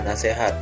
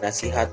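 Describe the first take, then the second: First: The middle vowel is an e sound. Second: The middle vowel is an i sound. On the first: This is the everyday nonstandard form. The speaker calls it wrong. "Sedangkan kata tidak bakunya adalah nasihat" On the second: This is the standard form. The speaker calls it right. "Bentuk kata baku dari kata nasihat adalah nasihat, memakai I"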